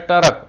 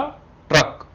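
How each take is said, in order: First: A full vowel separates the t and r. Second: The t and r join with no vowel. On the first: The speaker calls it wrong. "पूरा तो ऐसा लिखोगे जैसे आपने लिखा टरक" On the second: The speaker calls it right. "तो ये हुआ ट्रक"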